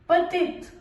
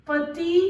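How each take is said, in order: First: "petite" with sounded final t; feminine pronunciation. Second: "petit" with silent final t; masculine pronunciation. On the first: Teacher modelling the feminine form, "petite" with final t. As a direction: close "petite" on a crisp t. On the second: Teacher modelling the masculine form, "petit" without final t. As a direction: end "petit" on a rising ee. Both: Shown as a demonstration. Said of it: "ई को add करना है".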